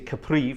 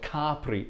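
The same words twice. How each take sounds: First: It is pronounced the English way. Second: It is pronounced the Italian way. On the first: The speaker calls it wrong. "in English we say Capri for some reason" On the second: The speaker calls it right. "it's actually called Capri if you come from Italy"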